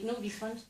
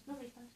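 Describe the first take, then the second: First: Said in the usual way. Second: Much softer, dropping away; quiet echo. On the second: Shown as a demonstration. Comic telling the audience about the lost money, quiet echo. Repeats the line as aside.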